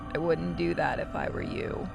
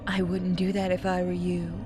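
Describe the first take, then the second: First: It is said in a special put-on voice. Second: It is said in the speaker's normal voice.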